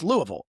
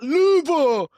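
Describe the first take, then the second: First: The name is said the local, reduced way. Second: The name is said the fuller, outsider way. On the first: The speaker calls it right. "It's Louisville" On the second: The speaker calls it wrong. "It's not Louisville"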